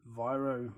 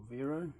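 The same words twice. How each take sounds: First: Viro said "VY-roh"; first pronunciation variant. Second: Viro said "VEE-roh"; alternative pronunciation. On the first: Lock picker naming the brand, Viro said as "VY-roh". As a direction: say Viro with a long "eye" vowel. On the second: Lock picker offering another reading, Viro said as "VEE-roh". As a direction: say Viro with an "ee" vowel. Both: Shown as a demonstration. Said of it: "depending on how you say it".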